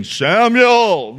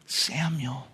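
First: A mild mock boom on "Samuel". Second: Much softer and lower, a gentle calling of the name; tender call. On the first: Shown as a demonstration. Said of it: "He doesn't come booming". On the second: Acted. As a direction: call "Samuel" softly, like waking a child. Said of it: "God's voice is tender".

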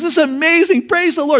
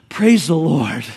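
First: High, excited cry of joy; delighted yelp, pitched high; thrilled rider. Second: Calm praise after a narrow escape; relieved and calm. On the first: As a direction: cheer it out as the horse takes off. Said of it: "He's so excited". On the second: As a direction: breathe out in relief, no longer shouting. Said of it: "the horse stops right at the edge". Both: Retold or imitated.

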